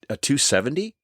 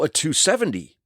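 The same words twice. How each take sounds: First: It sounds puzzled and questioning. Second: It sounds knowing and sure. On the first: The speaker does not know what it means. "he kind of read the tone in my voice" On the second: The speaker pretends to know what it means. "like I knew what it was"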